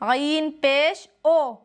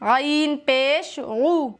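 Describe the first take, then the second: First: The final vowel sounds like o. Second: The final vowel is a clear oo sound. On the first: The speaker calls it wrong. "ये होता है मजहूल पढ़ना" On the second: The speaker calls it right. "ये होता है मारूफ, बिल्कुल सही आवाज"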